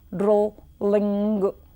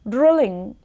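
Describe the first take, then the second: First: The l sound is held and doubled. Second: The l sound is short and single.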